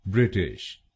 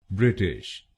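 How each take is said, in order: The two takes are said the same way.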